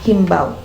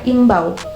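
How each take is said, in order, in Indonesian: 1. Kata ini diawali bunyi h. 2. Kata ini langsung diawali vokal. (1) "bukan himbau" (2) "yang betul dalam K B B I itu adalah imbau"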